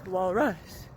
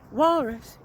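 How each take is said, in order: First: The stress is on the second syllable. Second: The stress is on the first syllable. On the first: The speaker calls it right. "the second syllable has the stress" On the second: The speaker calls it wrong. "it's not walrus"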